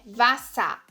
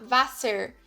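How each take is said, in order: First: The ending is said with an a sound. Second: The ending is said with an er sound. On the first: The speaker calls it right. "tem som de A" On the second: The speaker calls it wrong. "é errado você falar Wasser"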